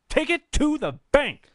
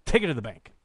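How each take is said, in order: First: "Take it to the bank" pitched much higher and louder; hyped-up repeat. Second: Said in the usual way. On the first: Real, not acted. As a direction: sell it like a hype man. Hyping prediction, repeated higher.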